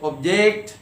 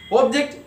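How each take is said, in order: First: "object" as ob-JECT, drawn out on the end; second-syllable stress. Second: "Object" as OB-ject, pitched high; first-syllable stress. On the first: Teacher reading verb example, second-syllable stress. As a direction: say ob-JECT, leaning on the last syllable. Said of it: "stress will be on the second syllable". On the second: Teacher reading noun example, first-syllable stress. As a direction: say OB-ject, punching the front. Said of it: "first syllable". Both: Shown as a demonstration.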